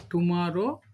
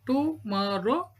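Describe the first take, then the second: First: Said in the usual way. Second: "tomorrow" slowly broken as to-mo-rrow; split into syllables. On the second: Shown as a demonstration. Teacher showing three syllables, "tomorrow" said beat by beat. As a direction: say "tomorrow" in three slow beats.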